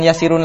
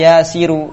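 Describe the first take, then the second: First: The word ends with an added n sound. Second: The word ends in a plain vowel without n. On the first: The speaker calls it wrong. "jangan yasirun lagi" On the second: The speaker calls it right. "jadi ya yasiru"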